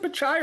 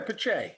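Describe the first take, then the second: First: "Pichai" ending in "chai", rhyming with eye; pronunciation option. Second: "Pichai" ending in "chay", rhyming with day; alternative pronunciation. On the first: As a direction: say "Pichai" with a final "eye" sound. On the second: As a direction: say "Pichai" with a final "ay" sound. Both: Shown as a demonstration. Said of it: "Is it Pichai or Pichai?".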